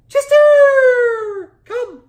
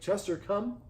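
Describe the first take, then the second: First: It is said in a high-pitched voice. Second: It is said in a normal speaking pitch. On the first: "That high-pitched voice you saw was very attractive" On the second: "in a normal tone of voice"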